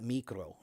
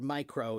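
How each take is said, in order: First: It is said with the Greek pronunciation. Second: It is said with the usual English pronunciation. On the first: "not micro, right? Which is the, the Greek way" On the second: "the way we say it"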